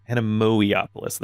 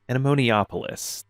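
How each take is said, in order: First: The name has no extra n sound inside. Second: The name has an extra n sound inside. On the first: The speaker calls it right. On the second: The speaker calls it wrong.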